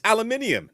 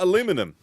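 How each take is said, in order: First: It is said with a British pronunciation. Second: It is said with an American pronunciation. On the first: The speaker calls it right. "because I'm English, British" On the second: The speaker calls it wrong. "not aluminum"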